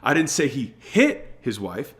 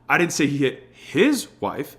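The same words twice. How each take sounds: First: The word "hit" is stressed. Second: The word "his" is stressed.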